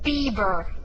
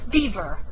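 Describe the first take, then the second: First: The middle consonant is a b sound. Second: The middle consonant is a v sound. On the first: The speaker calls it right. "There are two B's in his" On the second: The speaker calls it wrong.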